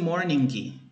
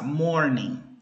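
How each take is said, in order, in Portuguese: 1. O som do G final é claramente pronunciado. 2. O som do G final não é pronunciado. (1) "eu não falei morning" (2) "esse G do final, ele nunca é pronunciado"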